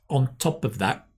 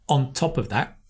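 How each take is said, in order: First: The words run together as one linked piece. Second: The words run together as one linked piece.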